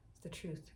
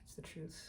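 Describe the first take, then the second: First: Said in the usual way. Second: Whispered. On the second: Real, not acted.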